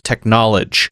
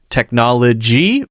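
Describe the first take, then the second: First: The word ends without the 'ee' sound. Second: The word ends with a clear 'ee' sound.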